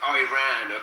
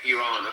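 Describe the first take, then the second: First: The name is said in an anglicized way. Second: The name is said in a native Persian way. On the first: The speaker calls it wrong. "not called Iran" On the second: The speaker calls it right. "It's Iran, okay?"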